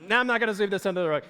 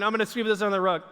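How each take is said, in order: First: Fast playful take-back; mock self-correction. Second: Quick mock-guilty mutter, fast; sneaky aside. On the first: Preacher correcting his own joke, fast and playful. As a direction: snap back quickly, half-joking. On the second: A stressed homemaker hiding dirt, fast mock aside. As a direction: rush it like hiding a mess. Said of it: "you're going".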